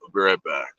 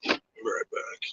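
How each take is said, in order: First: Said in the usual way. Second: Whispered aside. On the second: Real, not acted. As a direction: breathe it without voice, close to the mic. Repeats line, then whispers it.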